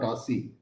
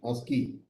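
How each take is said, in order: First: The C is said as a soft s sound. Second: The C is said as a hard k sound. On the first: The speaker calls it wrong. "not ASCII" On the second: The speaker calls it right. "produced with hard C"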